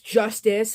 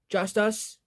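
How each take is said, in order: First: It is said as the single word justice. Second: It is said as two words, just us. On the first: It is the ordinary word justice. "there's Justice, which is like um J U S T I C E" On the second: Only the four band members perform. "or Just Us"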